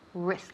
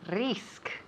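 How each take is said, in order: First: The r sound is soft and relaxed. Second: The r sound is rolled or tapped. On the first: The speaker calls it right. "es más suave, más relajado aquí" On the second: The speaker calls it wrong. "Sometimes I hear risk. ... eso es típico de Spanish"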